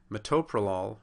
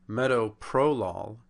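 First: Metoprolol as me-TOE-pro-lol; stress on second syllable. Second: Slow metoprolol, said MET-o-PRO-lol; stress on first syllable. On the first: Lecturer showing the correct drug name, Metoprolol stressed on second syllable. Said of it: "it's on the second syllable". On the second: Lecturer showing a common error, metoprolol stressed on first syllable. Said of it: "is on the first syllable". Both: Shown as a demonstration.

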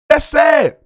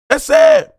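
First: Flat, let-down "That's sad"; a touch of mock pity; dismissive sigh. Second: Squeaky high mock "That's sad"; hammed-up high-pitched pity; mocking falsetto. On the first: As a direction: say it like it's a shame. Mock pity at Kwame Brown. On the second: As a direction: repeat it in a silly high voice to ridicule him. Mocking repeat of same line.

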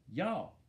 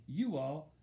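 First: "y'all" as one drawn-out syllable; Southern "y'all". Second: Said in the usual way. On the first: Shown as a demonstration. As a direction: run it together slowly as "y'all". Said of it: "Mama started talking Southern style". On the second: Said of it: "instead of saying you all".

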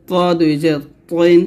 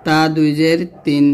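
First: পইন said with a heavy Arabic t; heavy emphatic t on পইন; thick To. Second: Light t in তিন; light Arabic t on তিন; thin ta. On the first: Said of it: "বলতে হবে মোটা করে". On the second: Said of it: "তখন পাতলা করে বলবেন". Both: Shown as a demonstration.

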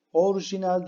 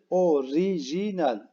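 First: Orijinal said as orjinal without the i, higher; teacher shows the wrong Orijinal; wrong form. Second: Orijinal said slowly with every syllable; teacher gives the right orijinal carefully; correct form. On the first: Teacher to pupils, wrong Orijinal. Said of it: "Orijinal değil". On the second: Teacher to pupils, slow correct orijinal. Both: Shown as a demonstration.

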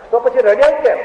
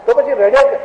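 First: Surprised question. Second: Insistent question. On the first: First take of question. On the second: Repeated louder. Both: Retold or imitated.

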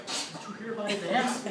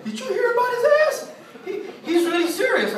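First: Clerk's hushed gossip. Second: Very high, squeaky mock giggler; giggling gossip. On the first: Retold or imitated. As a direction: pass it on quietly like a courtroom clerk. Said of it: "I see the lady, the clerk". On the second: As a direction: imitate gigglers gossiping at the back. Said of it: "everybody in the back giggling".

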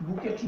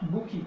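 First: বুকেট as "BOO-ket", t sounded; mispronunciation. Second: বুকি as "boo-KEE", silent final t; correct pronunciation. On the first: Teacher ruling out this form, mispronunciation. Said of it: "বুকেট নয়". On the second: Teacher giving the word for flower bunch, correct pronunciation. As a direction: end বুকি on an open ee. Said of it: "এটা উচ্চারণ হবে". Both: Shown as a demonstration.

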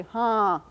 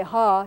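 First: "ha" with the vowel a little through the nose; nasalized vowel. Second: Said in the usual way. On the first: Shown as a demonstration. Lecturer showing students Comanche yes, nasalized vowel. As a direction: let the vowel of "ha" resonate in the nose. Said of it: "a little bit through your nose". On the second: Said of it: "that vowel is nasalized".

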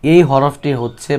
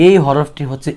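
The two takes are said the same way.

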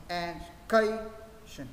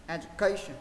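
First: "education" slowly split, pausing after E and after CA; two separated beats. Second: "education" in one smooth run without pauses; joined up. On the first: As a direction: break "education" into beats, leaning on E and CA. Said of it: "Thế mình sẽ được hai nhịp". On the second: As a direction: say "education" as one word, stress on CA. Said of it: "Sau đó đọc nhanh lên". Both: Shown as a demonstration.

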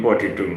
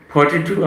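First: Said in the usual way. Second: ফর্টি টু with a puff on the p, pitched up; aspirated p. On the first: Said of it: "আমরা বলি ফর্টি টু". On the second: Shown as a demonstration. Teacher showing the native ফর্টি টু. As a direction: breathe out hard on the p of ফর্টি. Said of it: "তারা বলে".

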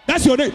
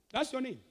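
First: Sudden loud, high declaration; prophetic outburst. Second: Soft question, far below preaching force; quiet check. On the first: Preacher revealing a man's name, prophetic outburst. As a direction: burst out with it as a revelation. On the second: Preacher checking the name with the man, quiet check. Quietly confirms after the outburst. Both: Real, not acted.

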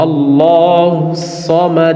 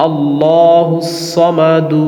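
First: Slow chanted "সমাদ" closing on a released d; vowelless final d. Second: Slow chanted "সমাদু" ending on an open u; final vowel sounded. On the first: Teacher shows how to stop, chanting "সমাদ" with a vowelless d. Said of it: "দালের উপরে সাকিন দিব". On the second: Teacher shows the form not used at a stop, chanting "সমাদু" with final u. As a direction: chant "সমাদু" with the last u voiced. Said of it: "আমরা আল্লাহুস সমাদু বলবো না". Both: Shown as a demonstration.

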